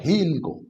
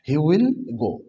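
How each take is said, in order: First: Will is shortened and joined to he. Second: The word will is pronounced in full.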